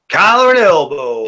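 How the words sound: It is said in a Southern US accent.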